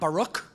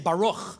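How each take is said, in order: First: It ends in a plain, crisp k sound. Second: It ends in a throaty, raspy ch sound. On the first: The speaker calls it wrong. "and not Baruch" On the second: The speaker calls it right. "a pride that I would say Baruch"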